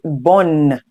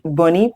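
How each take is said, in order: First: The word ends on the N sound. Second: A vowel sound is pronounced after the N. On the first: The speaker calls it right. "Please know the E is silent, but you say bonne" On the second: The speaker calls it wrong. "you do not say bonnie"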